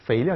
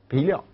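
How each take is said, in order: First: The word begins with an f sound. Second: The word begins with a b sound.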